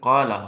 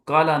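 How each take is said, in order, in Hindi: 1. पहला स्वर लंबा है। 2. पहला स्वर छोटा है। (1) "बल्कि काला हो जाता है" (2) "नहीं"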